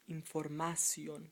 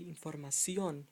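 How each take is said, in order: First: The stress is on the second-to-last syllable. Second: The stress is on the last syllable. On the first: The speaker calls it wrong. "without the accent, this word would sound like información" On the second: The speaker calls it right. "But you want to say información"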